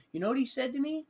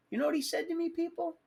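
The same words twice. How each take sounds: First: Said in the usual way. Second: Much higher, pressing "You know what he said to me, people?"; emphatic repeat. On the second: Shown as a demonstration. To the audience, demanding they listen: high emphatic repeat. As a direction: pitch "he said to me" way up to rouse the crowd.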